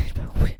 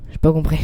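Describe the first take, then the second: First: Soft, breaking into a laugh. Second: Said in the usual way. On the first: Real, not acted. Streamer confessing he didn't understand his own reading, laughing. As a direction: giggle through the words quietly.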